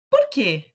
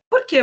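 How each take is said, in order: First: The word 'quê' is strong and stressed. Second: The word 'que' is weak and unstressed. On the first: It stands alone at the end of a question. "ele recebe uma entonação diferente. O que ele se torna mais forte, tônico" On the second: It opens a question. "Esse porquê, ele não tem a mesma entonação"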